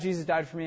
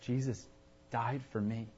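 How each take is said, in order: First: It is said in a casual, offhand tone. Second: It is said in an amazed, awestruck tone. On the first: The fact matters little to the person. "yeah, Jesus died for me, I know that that's cool" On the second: The fact deeply moves the person. "oh my gosh, Jesus died for me"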